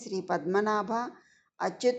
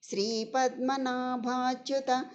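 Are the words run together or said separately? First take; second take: separately; run together. First: The words are split apart as separate forms. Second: The words are joined into one continuous form. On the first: This makes the meaning easier to explain. "నేను ఇలా విడదీసి చెప్పడం జరిగింది" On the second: This is the proper way to recite the verse. "రెండు కలిపే చెప్పుకోవాలి"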